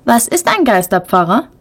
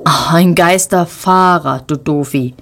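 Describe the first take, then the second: First: Put-on a higher child voice asking Geisterpfarrer, pf for f; mispronounced word. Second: Geisterfahrer said slowly and clearly, with an f; correcting him with a clear f in Geisterfahrer; correct word. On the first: Little brother asks about the word, mispronouncing Geisterpfarrer with a pf. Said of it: "fragt Lukas jetzt". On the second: Big sister corrects her little brother, saying Geisterfahrer slowly and clearly. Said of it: "wirft Ronja ihrem kleinen Bruder zu". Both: A narrator's reading.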